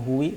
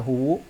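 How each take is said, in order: First: The word ends in an i vowel. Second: The word ends in a u vowel. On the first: "atau huwi" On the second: "Tidak boleh dibaca huwu"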